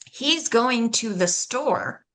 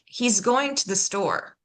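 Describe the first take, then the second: First: Every word is pronounced fully and separately. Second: The words are shortened and run together.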